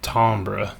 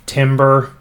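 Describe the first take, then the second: First: It is said with a fancy, refined pronunciation. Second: It is said the way the spelling suggests. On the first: "or if you're being super fancy" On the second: "it's spelled like it should be timber"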